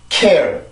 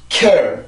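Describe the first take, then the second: The two takes are said the same way.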